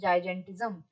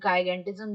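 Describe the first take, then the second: First: The word begins with a soft J sound. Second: The word begins with a hard G sound. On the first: "जिस जिस भी तरीके से इसको pronounce किया जाए" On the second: "जिस जिस भी तरीके से इसको प्रोनाउंस किया जाए"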